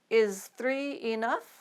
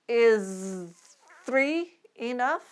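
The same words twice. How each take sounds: First: The phrase is spoken faster. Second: The phrase is spoken slowly. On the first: "Let's try them a little faster" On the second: "We'll start slowly"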